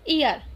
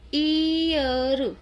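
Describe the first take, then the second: First: The first vowel is short and quick. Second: The first vowel is long and drawn out. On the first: The speaker calls it right. "अब आपको इसको जल्दी से पढ़ना होगा" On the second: The speaker calls it wrong. "यानी कि थोड़ा खींच के पढ़ेंगे"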